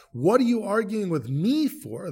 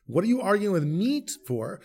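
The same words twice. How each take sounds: First: "me" pushed up and held as the peak word; stress on me. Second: Said in the usual way. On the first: Shown as a demonstration. Moses rebuking the people, weight on "me". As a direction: lean hard on "me", keep "arguing" light. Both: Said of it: "The emphasis is on me rather than argue".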